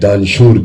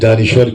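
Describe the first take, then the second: First: The word has two syllables, ending in -shoor. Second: The word has three syllables, ending in -war. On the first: The speaker calls it wrong. "मेरी उर्दू भी कमजोर हो गई है तो कभी कभी ... दानशूर कह देता हूँ" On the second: The speaker calls it right. "दानिश्वर के बजाय"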